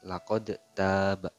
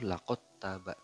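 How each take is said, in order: First: The d is pronounced separately before the t. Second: The d merges fully into the following t. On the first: The speaker calls it wrong. "jangan laqad taba. Itu salah" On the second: The speaker calls it right. "dibacanya itu laqad taba"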